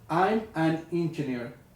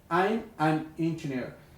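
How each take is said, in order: No difference in how they are said.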